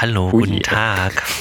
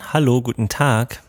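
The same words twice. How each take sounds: First: The voice has strongly boosted midrange frequencies. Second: The voice has boosted high frequencies. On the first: "ganz viele Mitten reindrehen" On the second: "Und was sagen die Höhen?"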